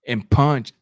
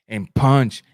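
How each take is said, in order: Both takes have the same delivery.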